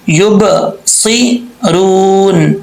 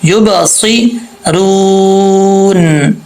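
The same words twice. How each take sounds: First: یب سیرون with a light thin س, slow; wrong thin reading. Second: یب سیرون with qalqala on ب and a full heavy ص, slow; heavy full-mouth sad. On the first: Teacher showing the common wrong reading. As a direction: say یب سیرون with a thin plain s as the mistake. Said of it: "اس کو یب سیرون نہیں پڑھیں گے". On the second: Teacher contrasting the correct heavy reading. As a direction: bounce the ب and fill the mouth for the ص. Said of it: "اس کو پر پڑھا جائے گا". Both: Shown as a demonstration.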